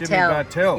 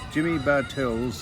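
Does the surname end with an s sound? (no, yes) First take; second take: no; yes. First: The surname ends without an s sound. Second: The surname ends with an s sound. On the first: The speaker calls it right. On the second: The speaker calls it wrong.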